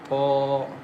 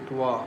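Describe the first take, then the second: First: The lips stay unrounded on the sound. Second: The lips are rounded on the sound. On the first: The speaker calls it right. "The correct is ta" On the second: The speaker calls it wrong. "don't change the shape of your lips... Twa is wrong"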